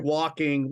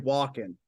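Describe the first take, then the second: First: The final g sound is clearly pronounced. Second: The final g sound is dropped. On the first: "we don't say our G's. So we don't we don't say walking" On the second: "we say walking"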